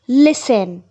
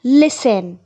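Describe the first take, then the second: First: The t sound is silent in the middle. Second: The same.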